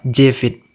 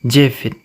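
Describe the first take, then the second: First: The second syllable sounds like 'vit'. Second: The same.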